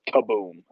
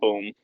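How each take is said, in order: First: It is said with lots of energy. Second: It is said plainly, with little energy.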